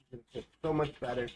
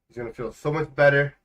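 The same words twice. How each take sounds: First: Softer and fast, rattled off; quick soft repeat. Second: Said in the usual way. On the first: Shown as a demonstration. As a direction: toss it off quickly under the breath. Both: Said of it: "repeats line faster, softer".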